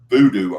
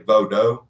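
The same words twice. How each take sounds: First: It has the usual American pronunciation. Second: It has the original, non-American pronunciation. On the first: It refers to the form practised in the Americas. "if I say voodoo, I'm talking about American" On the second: It names the original religion. "if I say voodoo, that's the original"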